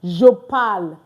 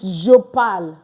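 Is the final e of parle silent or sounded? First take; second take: silent; silent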